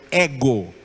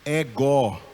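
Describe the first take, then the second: First: The stress is on the first syllable. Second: The stress is on the last syllable. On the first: The speaker calls it right. "A tonicidade ficou no épsilon" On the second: The speaker calls it wrong. "por que não é ego"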